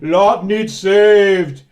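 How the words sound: It is said in a deep voice.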